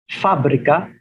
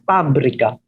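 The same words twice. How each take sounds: First: The word starts with an F sound. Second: The word starts with a P sound. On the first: This is the Spanish pronunciation. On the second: This is the Filipino pronunciation.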